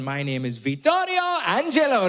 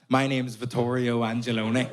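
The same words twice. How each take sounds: First: It is said in an Italian accent. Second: It is said in a Belfast accent. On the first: "Sounds like a fucking Dolmio ad" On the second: "It shouldn't be in a Belfast accent"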